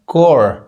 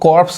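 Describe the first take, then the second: First: The word ends without p or s sounds. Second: The word ends with p and s sounds. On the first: The speaker calls it right. "पी भी silent है, एस भी silent है" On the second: The speaker calls it wrong. "लोग पढ़ देते हैं"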